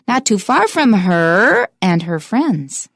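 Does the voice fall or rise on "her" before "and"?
rises. The voice rises on "her" to signal more.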